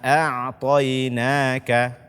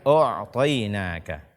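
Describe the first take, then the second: First: The first vowel is a clear, light 'a'. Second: The first vowel is a heavy, rounded 'o'. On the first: The speaker calls it right. "bacalah a" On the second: The speaker calls it wrong. "bukan o'tainaka"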